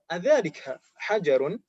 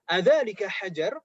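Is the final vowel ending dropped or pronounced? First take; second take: pronounced; dropped. First: The last word ends with the final -un ending. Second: The last word ends without the final vowel ending. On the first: "atau adzalika hajarun" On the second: "harokat terakhirnya dibaca juga atau tidak"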